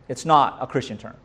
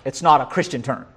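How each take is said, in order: No difference in how they are said.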